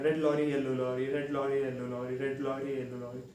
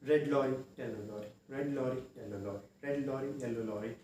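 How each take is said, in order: First: It is said quickly, at a faster rate. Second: It is said slowly and steadily.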